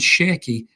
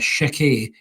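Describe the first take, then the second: First: The name is said in an English accent. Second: The name is said in a French accent.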